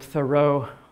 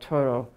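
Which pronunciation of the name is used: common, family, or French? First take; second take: common; French. First: The name is said the widely used way. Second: The name is said with a French pronunciation. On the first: This is how many people usually say it. "if you've been calling him Thoreau all your life" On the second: This is how French speakers say it. "in the French way"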